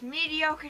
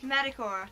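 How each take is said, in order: First: The middle is said as 'dee-oh'. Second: The middle is said as 'ta'. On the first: "just mediocre doesn't sound right" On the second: "It's it's Metacore"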